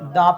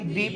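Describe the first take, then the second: First: The word ends with an 'uh' vowel. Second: The word ends with an 'ee' vowel. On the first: The next word starts with a consonant sound. "अगर consonant letter से किसी noun की शुरुआत होती है तो उसको dear हम क्या पढ़ते" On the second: The next word starts with a vowel sound. "अगर वोवेल लेटर से किसी वर्ड की स्टार्टिंग होती हो ... तो उसको डियर हम दी बोलेंगे"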